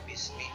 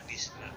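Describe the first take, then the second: First: The word ends with an i vowel. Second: The word ends with an a vowel. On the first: The speaker calls it right. "tetapi bismi" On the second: The speaker calls it wrong. "tidak dibaca bisma"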